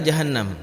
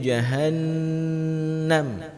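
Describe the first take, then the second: First: The n sound is short. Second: The n sound is held long. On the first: "dalam bahasa Indonesia" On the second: "harus dibaca lebih lah lebih lama"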